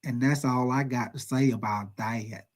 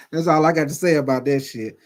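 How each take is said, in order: First: Slow, low, quieter Forrest Gump drawl; a hint of Forrest Gump, slow and low. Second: Said in the usual way. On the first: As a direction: lightly imitate Forrest Gump, slowly and softly. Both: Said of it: "like Forrest Gump would say".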